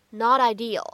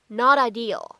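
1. 两个词连读，t 读成闪音。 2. 两个词连读，t 读成闪音。

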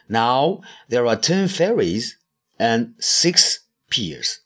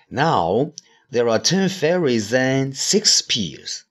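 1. "and"前面有停顿。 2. 这句话读得很顺，中间没有停顿。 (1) "还可以分开读。" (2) "也可以连起来读。比如说"

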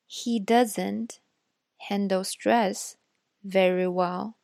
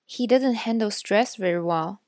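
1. 这句话读得更慢。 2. 这句话是正常语速读的。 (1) "再读一遍慢一点的" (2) "我会先读一遍正常语速的"

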